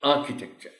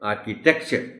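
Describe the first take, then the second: First: The stress is on the first syllable. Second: The stress is on the third syllable. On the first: The speaker calls it right. "Stress is on ए" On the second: The speaker calls it wrong. "पहली टी पर हम stress दे दें, ये गलत हो जाएगा"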